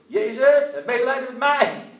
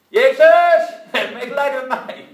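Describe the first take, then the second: First: Loud desperate cry for mercy. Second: Even louder desperate cry. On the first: Blind beggar shouting to Jesus for mercy, loud desperate cry. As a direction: call out to Jesus at full voice. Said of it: "gaat hij roepen". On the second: Blind man crying out still louder to Jesus. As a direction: shout it out harder than before with full force. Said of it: "hij riep nog harder". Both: Retold or imitated.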